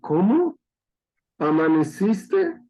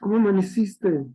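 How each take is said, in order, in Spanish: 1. Se divide en dos con un tono sorprendido. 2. Se dice con calidez y cariño. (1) "esperando que ya cuelguen los tenis" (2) "¿Cómo amaneciste con cariño?"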